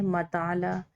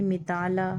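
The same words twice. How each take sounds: First: मताला said with a after m; zabar reading ma. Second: मिताला said with short i after m; zer reading mi. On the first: Teacher to students, demonstrating the zabar vowel. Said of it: "ज़बर के साथ में पढ़ें". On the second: Teacher to students, demonstrating the zer vowel. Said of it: "जेर के साथ में पढ़ें". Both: Shown as a demonstration.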